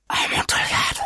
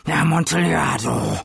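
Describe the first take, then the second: First: Amontillado whispered, breathless and dreamy; whispered craving. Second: Put-on drunken exclamation. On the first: Acted. Fortunato murmurs the wine's name. (Amontillado geflüstert, fast tonlos) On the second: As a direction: shout Amontillado like a craving. Fortunato exclaims the wine's name. (Amontillado laut und fallend ausgerufen)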